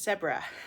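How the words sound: The word is said with a British pronunciation. "uses the British pronunciation"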